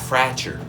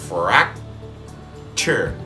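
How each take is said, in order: First: The air flows on without a block before ch. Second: The air is briefly blocked before the ch sound. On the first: The speaker calls it wrong. "If I don't make that blockage with the air" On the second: The speaker calls it right. "you have to stop yourself from saying that C"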